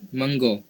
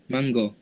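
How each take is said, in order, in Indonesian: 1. Diucapkan dengan pelafalan dialek Negeri Sembilan. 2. Diucapkan dengan pelafalan dialek Negeri Sembilan.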